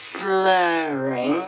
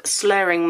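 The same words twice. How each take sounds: First: Long, smeared "slurring"; demonstrated slurring. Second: Said in the usual way. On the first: Shown as a demonstration. Joking to viewers about her brace, mock slurring. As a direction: stretch "slurring" out in a mock slur. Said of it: "sounds a little bit maybe like I'm slurring". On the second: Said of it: "I promise you I am not".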